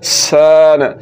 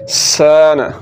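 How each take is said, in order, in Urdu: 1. s کے بعد کا مصوتہ لمبا کھینچا جاتا ہے۔ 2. s کے بعد کا مصوتہ لمبا کھینچا جاتا ہے۔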